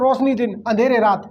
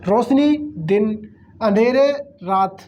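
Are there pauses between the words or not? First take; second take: no pauses; pauses. First: The words run together without pauses. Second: Short pauses separate each word.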